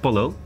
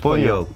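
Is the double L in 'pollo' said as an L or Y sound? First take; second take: L sound; Y sound. First: The double L is said as an L sound. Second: The double L is said as a Y sound. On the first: The speaker calls it wrong. "Dat is fout" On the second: The speaker calls it right. "het is pollo"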